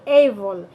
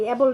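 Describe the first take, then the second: First: এবল opened with a long "ey" glide; stretched gliding first vowel in এবল; corrected "able". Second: এবল with a short pure e; no glide in এবল; wrong "able". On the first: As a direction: say এবল as "ey-bol". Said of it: "এটা হবে এবল". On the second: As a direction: say এবল as "e-bol". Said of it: "এবল না". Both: Shown as a demonstration.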